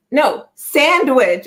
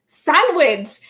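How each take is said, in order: First: SANDWICH drawn out slowly with a clear d; stretched-out SANDWICH, "sand" stressed and d sounded; insistent correction. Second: SANDWICH repeated higher as "sang-wich"; higher-pitched SANDWICH with ng for nd; oblivious mispronunciation. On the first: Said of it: "No, you're saying sandwich". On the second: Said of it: "I could not hear it for the love of me". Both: Retold or imitated.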